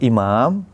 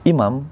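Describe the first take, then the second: First: The second vowel is said long. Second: The second vowel is said short. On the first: The speaker calls it right. "ada alifnya" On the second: The speaker calls it wrong. "jadi nggak ada alifnya"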